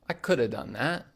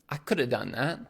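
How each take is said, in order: First: Could have is blended into coulda. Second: Could have is blended into coulda.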